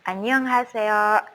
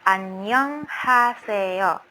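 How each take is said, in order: First: The greeting is said at a faster pace. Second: The greeting is said at a slower pace.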